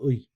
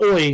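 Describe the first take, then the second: First: The vowel is made far back in the throat. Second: The vowel is made further forward, like oi. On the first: The speaker calls it right. "you got to do it in the back of your throat" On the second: The speaker calls it wrong. "It's not oi"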